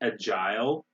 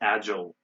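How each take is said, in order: First: The word is said in a British accent. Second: The word is said in an American accent. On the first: "in British English they say agile" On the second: "In American, most in most American accents, it's agile"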